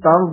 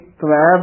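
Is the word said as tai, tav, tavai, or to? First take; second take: tav; tavai. First: The word is said as tav. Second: The word is said as tavai. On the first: "ਕਈ ਤਵ ਬੋਲਦੇ ਹਨ" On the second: "ਕਈ ਤਵੈ ਬੋਲਦੇ ਹਨ"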